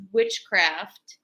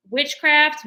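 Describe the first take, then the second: First: Said in the usual way. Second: Witchcraft repeated higher and louder; stress on witchcraft. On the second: Shown as a demonstration. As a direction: hit witchcraft hard the second time.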